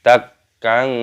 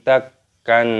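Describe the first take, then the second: Both takes have the same delivery.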